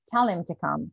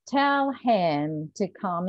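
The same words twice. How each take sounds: First: The h in him is dropped. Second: The h in him is clearly pronounced. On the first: It is ordinary, unemphatic speech. "if it's just a normal speech" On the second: Extra emphasis is placed on the person. "unless they want to put some emphasis and unless they want to stress the second word"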